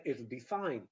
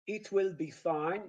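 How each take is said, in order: First: "It'll be fine" with a schwa "it-ul"; lower, linked "It'll be fine", falling at the end; contracted form. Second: "It will be fine" with WILL fully sounded; separate, full words in "It will be fine"; careful uncontracted "It will be fine"; full uncontracted form. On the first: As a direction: shorten will to "'ll" in "It'll be fine". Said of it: "you say". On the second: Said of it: "So instead of saying". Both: Shown as a demonstration.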